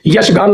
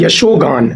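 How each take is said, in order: First: यशगान with no o, yash-gaan; wrong form. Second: यशोगान with a clear o, yasho-gaan; correct form. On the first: Teacher citing the mistake, यशगान without the o. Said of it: "नहीं होता". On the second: Teacher correcting students, यशोगान with a clear o. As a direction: sound the long o in यशोगान. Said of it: "ये correct है". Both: Shown as a demonstration.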